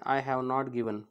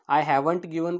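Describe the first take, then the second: First: Have and not are said as two full words. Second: Have and not are joined into one syllable.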